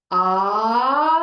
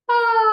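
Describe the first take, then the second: First: Loud ah sliding up and holding the top note; pitch glide up. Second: Loud ah starting very high and sliding down; pitch glide down. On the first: Therapist demonstrates glide up, loud rising ah. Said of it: "So you can glide up". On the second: Therapist demonstrates glide down from the highest pitch. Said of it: "start at the highest pitch, and you're gonna glide down". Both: Shown as a demonstration.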